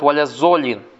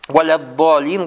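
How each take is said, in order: First: The consonant before -olin sounds like z. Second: The consonant before -olin sounds like d. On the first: The speaker calls it wrong. "некоторые ... говорят «Валяззолин»" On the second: The speaker calls it right. "вместо «Валяддолин»"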